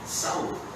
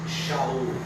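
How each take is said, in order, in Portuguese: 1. O nome começa com o som s. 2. O nome começa com o som sh. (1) "Em português tem que ser Saul" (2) "aquela letra S H"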